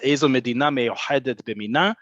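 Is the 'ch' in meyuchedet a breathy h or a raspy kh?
breathy h. The ch sound is a breathy throat h. This is the Mizrahi way of saying it. "So he says"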